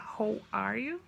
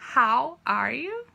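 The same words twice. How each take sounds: First: The vowel in 'how' sounds like 'o'. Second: The vowel in 'how' sounds like 'a'. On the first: The speaker calls it wrong. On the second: The speaker calls it right. "fica com som de A"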